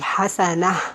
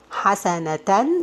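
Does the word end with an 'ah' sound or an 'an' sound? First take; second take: ah; an. First: The word ends with a breathy 'ah' sound. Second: The word ends with a nasal 'an' sound.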